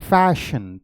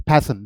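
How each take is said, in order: First: फैशन, lip to teeth, no pop of both lips; फैशन said with a proper English f; correct fashion with F. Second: फैशन said with both lips, like pashan; फैशन with a p-like sound from both lips; wrong lips-together fashion. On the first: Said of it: "अब देखो मैं क्या बोलूँगा". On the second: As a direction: bilabial फैशन, no teeth on lip. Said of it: "जब मैंने फैशन बोला तो दोनों लिप्स टच करेगा". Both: Shown as a demonstration.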